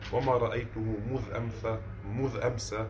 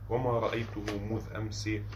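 First: The word 'ams' ends with an 'a' vowel. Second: The word 'ams' ends with an 'i' vowel. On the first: The word is inflected like a noun that takes no nunation. "بالفتح" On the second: The word is fixed in one form regardless of its role. "بالكسر في الأحوال الثلاثة"

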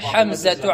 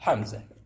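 First: The final letter is said as t, linked onward. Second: The final letter is said as h, with a stop. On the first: The word is joined to the words after it. "فتصل التاء بما بعدها ناطقا بها تاء" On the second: The speaker pauses on the word. "وإذا وقفت عليها تنطقها هاء"

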